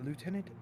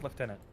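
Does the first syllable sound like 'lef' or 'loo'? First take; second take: loo; lef. First: The first syllable sounds like 'loo'. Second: The first syllable sounds like 'lef'. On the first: "instead of the uh, American way" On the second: "up here in Canada, it's pronounced lieutenant"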